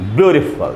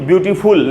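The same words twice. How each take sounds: First: The last syllable has a reduced schwa vowel. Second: The last syllable has a full 'ful' vowel. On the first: The speaker calls it right. "वैसे हम हम इसको भी बोलेंगे" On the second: The speaker calls it wrong. "इसको भी ब्यूटीफुल नहीं बोलना चाहिए"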